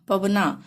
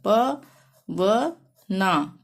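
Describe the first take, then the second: First: Said in the usual way. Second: Very slow, प then व then ना, clearly apart; teacher sounding out each letter of Pawna; syllable by syllable. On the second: Shown as a demonstration. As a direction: split Pawna into its letters for the class. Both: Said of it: "जैसे कि हमने लिखना है पवना".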